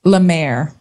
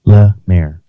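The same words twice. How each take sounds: First: Lemaire said slowly as luh-MAIR for him to copy; model the name. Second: Lemaire copied as luh-MAIR, a little louder; repeating the name. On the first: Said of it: "How do I pronounce your last name". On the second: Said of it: "Yeah, very good". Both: Shown as a demonstration.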